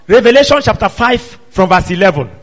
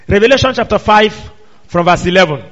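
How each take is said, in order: Both takes have the same delivery.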